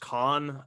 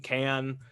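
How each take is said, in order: First: The name is said with a German-style vowel. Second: The name is said with an English vowel.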